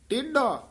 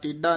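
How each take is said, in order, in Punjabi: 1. ਵਿਚਕਾਰਲਾ ਵਿਅੰਜਨ ਸੁਰ ਵਾਲਾ 'dh' ਦੀ ਆਵਾਜ਼ ਹੈ। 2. ਵਿਚਕਾਰਲਾ ਵਿਅੰਜਨ ਸਾਦਾ 'd' ਦੀ ਆਵਾਜ਼ ਹੈ। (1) "ਢੱਡਾ ਲਾ ਕੇ ਉਚਾਰਨ ਕਰਨਾ" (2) "ਟੇਢਾ ਡੱਡੇ ਨਾਲ ਨਹੀਂ ਬੋਲਣਾ"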